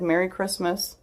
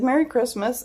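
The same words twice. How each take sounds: First: Soft, slightly raised voice of a kind stranger; imitated quiet, reassuring well-wishing; comforting. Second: High, mock-tearful voice; small, high-pitched weepy well-wishing; imitated tearful reply. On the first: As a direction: say it gently, like a squeeze on the shoulder. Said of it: "it was comforting". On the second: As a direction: act out answering while close to sobbing. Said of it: "I cried for, just sobbed".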